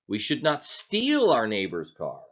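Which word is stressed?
steal. The stress falls on the word "steal". Borrowing it would be fine. "Are we saying then that it's okay to borrow it?"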